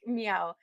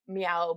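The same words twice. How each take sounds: First: It sounds like a lost, plaintive yowl. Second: It sounds like a demanding, hungry meow.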